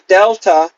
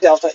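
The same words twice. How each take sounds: First: The word is said with a clear, strong emphasis. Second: The word is said flat, without a strong emphasis. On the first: The speaker calls it right. "you say delta ... you have to like put an emphasis" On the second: The speaker calls it wrong. "You don't say delta"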